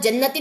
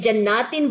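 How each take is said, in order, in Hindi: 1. दूसरे अक्षर में छोटा स्वर है। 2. दूसरे अक्षर में लंबा स्वर है। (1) "अगर ये ऊपर खड़ा जबर ना होता जन्नतिन होता तो एक बाग की बात है" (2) "अब खड़ा जबर है तो ज्यादा बाग"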